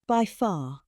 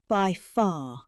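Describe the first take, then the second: No difference in how they are said.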